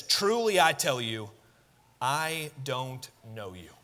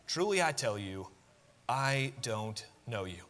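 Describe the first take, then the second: First: Slow, weighty declaration; solemn verdict. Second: Softer, slower final echo; hushed verdict. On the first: Master answering the late virgins, slow and solemn. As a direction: let the verdict land with weight. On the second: Preacher echoing the master's rejection, soft and heavy. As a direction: let it sink in quietly. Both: Shown as a demonstration. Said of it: "repeats the master's verdict".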